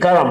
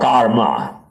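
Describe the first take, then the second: First: The word ends with the sounds 'am'. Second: The word ends with the sounds 'ma'. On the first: The speaker calls it right. "It is actually karam" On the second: The speaker calls it wrong. "the people in the other part of the world just call karma"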